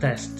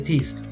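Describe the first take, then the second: First: The vowel is said short and clipped. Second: The vowel is said long, like its name. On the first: The speaker calls it right. "The pronunciation of that vowel is gonna be short" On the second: The speaker calls it wrong. "we don't say test"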